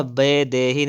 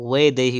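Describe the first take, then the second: First: वैदेही starting with b; closed-lip b opening वैदेही; wrong pronunciation. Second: वैदेही starting with v; correct pronunciation. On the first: Teacher showing the error, वैदेही with b. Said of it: "नहीं होता है". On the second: Teacher correcting, वैदेही with v. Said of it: "वैदेही होता है". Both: Shown as a demonstration.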